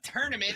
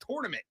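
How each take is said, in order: First: The first syllable does not sound like 'tour'. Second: The first syllable sounds like the word 'tour'. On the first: The speaker calls it wrong. "it's not tournament" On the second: The speaker calls it right. "The first four letters are tour"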